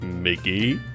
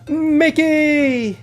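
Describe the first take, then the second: First: It is said with little energy. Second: It is said with lots of energy.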